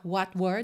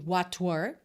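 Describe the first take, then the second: First: The t is barely heard, linked into the next word. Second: The t is clearly released before the next word. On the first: The speaker calls it right. "fica mais fácil de juntar what were" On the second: The speaker calls it wrong. "do que what were"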